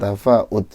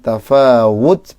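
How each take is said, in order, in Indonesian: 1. Konsonan tengah adalah hamzah. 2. Konsonan tengah adalah bunyi w. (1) "bukan tafaud. Bukan hamzah ya" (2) "pakai wawu"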